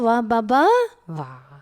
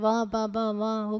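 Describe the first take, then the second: First: It is said warmly, with a lot of love. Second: It is said absently, without feeling.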